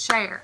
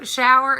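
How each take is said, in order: First: It is said with one syllable, like share. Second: It is said with two syllables, show-er.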